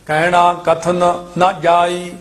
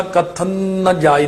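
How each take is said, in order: First: Slow ਕਥਨ, then a separate ਨ ਜਾਈ; separated n's. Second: ਕਥਨ ਨ run together into one long n; mistaken merged n's. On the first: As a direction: keep the two n's of ਕਥਨ ਨ apart. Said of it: "ਇੱਥੇ ਦੋ ਨੰਨੇ ਇਕੱਠੇ ਨਹੀਂ ਕਰ ਜਾਣੇ". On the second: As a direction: blur ਕਥਨ ਨ ਜਾਈ at the double n. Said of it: "ਇਉਂ ਨਹੀਂ ਬੋਲਣਾ". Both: Shown as a demonstration.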